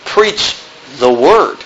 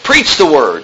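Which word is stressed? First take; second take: word; preach. First: The stress falls on the word word. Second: The stress falls on the word preach. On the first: What is preached must be God's word. "Why don't we put the emphasis on the latter part?" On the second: The act of preaching is what matters. "most of the time the emphasis is on the preach"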